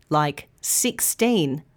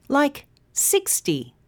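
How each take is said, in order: First: Put-on sixteen slow, second syllable teen long; stress on -teen. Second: Sixty with six long and high, ty short; stress on six. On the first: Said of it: "numbers that end in teen". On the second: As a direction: punch the first syllable of sixty. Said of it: "numbers that end in T". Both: Shown as a demonstration.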